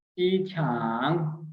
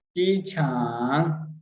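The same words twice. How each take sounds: First: Said in the usual way. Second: चीछांग slowly with a rise at the end; slow, rising चीछांग for learners; slow demo. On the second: Shown as a demonstration. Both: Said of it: "football को बोलते हैं चीछांग".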